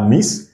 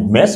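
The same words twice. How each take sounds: First: MISS with an i in place of e; wrong vowel in MISS. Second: MESS with an open, French-like e; short e in MESS. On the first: Teacher showing learners the mistake, MISS with an i. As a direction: say MISS as the mistaken reading of mess. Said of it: "on dit pas miss". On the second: Teacher modelling for learners, MESS with an open e. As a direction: say MESS with e, avoiding an i sound. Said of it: "on dit mess". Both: Shown as a demonstration.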